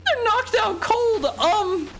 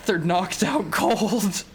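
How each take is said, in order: First: Loud, very high falsetto; hammed-up high wailing denial; high distressed squeal. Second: Said in the usual way. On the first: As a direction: squeak it out in mock panic.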